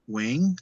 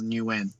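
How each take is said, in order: First: The name sounds like 'wing', ending in ng. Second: The name sounds like 'new win', two syllables. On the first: This is how it is said in Vietnam. "in Vietnam, it's uh Wing" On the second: This is how it is said in Australia. "how I say it in Australia is Nguyen"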